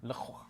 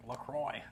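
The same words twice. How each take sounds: First: Le Croix echoed as "luh kwah"; French-style pronunciation. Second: Put-on LaCroix said "luh-kroy", rhyming with boy; West Coast Canadian pronunciation. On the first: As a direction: say Le Croix with a silent x and a "wah" ending. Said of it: "I'm pretty sure it's Le Croix". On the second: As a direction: anglicise LaCroix with an "oy" ending and no x. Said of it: "West Coast Canadian". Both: Shown as a demonstration.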